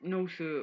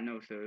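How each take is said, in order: First: Higher-pitched meek imitation; mock polite. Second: Said in the usual way. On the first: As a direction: mimic someone backing down with exaggerated politeness. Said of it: "acting all polite". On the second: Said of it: "like, not".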